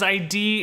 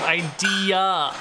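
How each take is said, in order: First: The word ends on 'dee' with no final vowel. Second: The word ends with a final 'uh' vowel. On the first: The speaker calls it wrong. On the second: The speaker calls it right.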